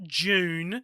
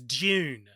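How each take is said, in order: First: The word begins with a clear J sound. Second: The first sound lies between D and J. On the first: The speaker calls it wrong. "It's not June" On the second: The speaker calls it right. "It's somewhere in between"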